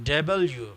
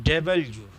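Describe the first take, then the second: No difference in how they are said.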